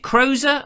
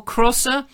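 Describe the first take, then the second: First: Crozer with a long o, "CROH-zer"; surname pronunciation option. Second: Crosser with a short o, "CROSS-er"; alternative surname pronunciation. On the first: Presenter guessing a viewer's surname, Crozer as CROH-zer. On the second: Presenter offering a second surname guess, Crosser as CROSS-er. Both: Shown as a demonstration. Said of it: "how you pronounce your surname".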